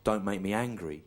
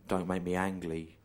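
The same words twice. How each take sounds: First: The word "angry" said with its r; plain angry. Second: "Ang Lee" said with an l, in place of angry; slow deadpan pun, landing on "Ang Lee" with an l; punning Ang Lee. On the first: Quoting Bruce Banner's warning to Ang Lee, "angry" with a clear r. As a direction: end on "angry" with a clear r, slowly. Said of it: "He, he says, 'Don't make me angry". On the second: Explaining the joke to the director, "Ang Lee" deliberately replacing angry. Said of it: "sounds a bit like angry". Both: Acted.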